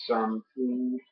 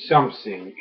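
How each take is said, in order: First: "something" said softly with the French "th"; gentle French accent on "something"; genuine French "something". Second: Wrong French-accented take. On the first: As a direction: say "something" the way a real French speaker does. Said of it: "genuinely, a French person would say". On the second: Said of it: "which is not what a French person would say". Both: Shown as a demonstration.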